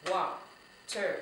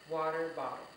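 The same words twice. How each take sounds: First: "Wa-ter-ba-tle" in four separate, spaced beats; syllable by syllable. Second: Said in the usual way. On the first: Shown as a demonstration. Teacher counting syllables with children, "Wa-ter-ba-tle" chopped into four beats. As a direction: break "Wa-ter-ba-tle" into syllables, pausing after each. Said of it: "How many syllables was that". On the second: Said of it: "let's go ahead and use".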